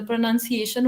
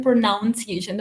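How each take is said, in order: First: "प्रोनाउंसिएशन" with NUN as second syllable; correct pronunciation. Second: "प्रोनाउंसिएशन" with NOUN as second syllable; common mispronunciation. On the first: Teacher correcting students' usual error, "प्रोनाउंसिएशन" pronounced pro-nun-ciation. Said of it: "तो प्रोनाउंसिएशन होता है". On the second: Teacher quoting students' usual error, mispronounced "प्रोनाउंसिएशन" as pro-noun-ciation. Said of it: "वो usually बोलते हैं". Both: Shown as a demonstration.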